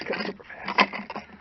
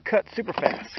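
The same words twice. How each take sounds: First: Slow unvoiced whisper of the phrase. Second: Said in the usual way. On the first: Shown as a demonstration. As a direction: breathe it out slowly, no voice. Repeats phrase, second in whisper.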